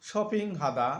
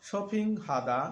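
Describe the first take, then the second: The two takes are said the same way.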